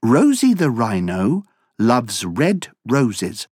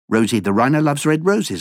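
First: It is spoken at a normal pace. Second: It is spoken at a very fast pace.

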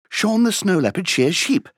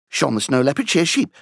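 First: It is said at a faster pace. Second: It is said at a very fast pace. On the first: "plus vite!" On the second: "Encore plus vite!"

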